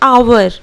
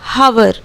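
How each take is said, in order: First: The word starts with a vowel, no h. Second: The word starts with an h sound. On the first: The speaker calls it right. "इसे हम लोग प्रोनाउंसिएट करते हैं आवर" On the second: The speaker calls it wrong. "हावर तो हम लोग नहीं बोलते हैं"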